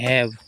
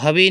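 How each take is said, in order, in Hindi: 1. यह v पर खत्म होता है, अंत में कोई स्वर नहीं। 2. इसका अंतिम स्वर उच्चारित होता है। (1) "हैव पढ़ते हैं" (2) "इसको हवे नहीं पढ़ते"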